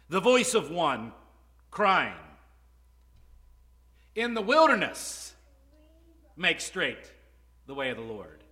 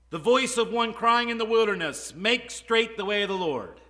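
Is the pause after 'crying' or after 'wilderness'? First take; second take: after crying; after wilderness. First: The pause comes after the word crying. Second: The pause comes after the word wilderness. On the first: The way is to be made straight in the wilderness. "The Essenes read it this way" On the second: The voice is crying out in the wilderness. "Did you hear how I read that?"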